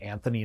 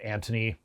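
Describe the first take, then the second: First: The middle consonant is a 'th' sound. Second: The middle consonant is a plain 't' sound. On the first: This is how someone else says the name. The speaker calls it wrong. "he's saying Anthony" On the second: This is how the name should be said. The speaker calls it right. "instead of Antony"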